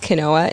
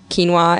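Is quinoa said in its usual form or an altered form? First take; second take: altered; usual. First: The word is said in an altered form. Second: The word is said in its usual form. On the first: The speaker calls it wrong. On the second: The speaker calls it right.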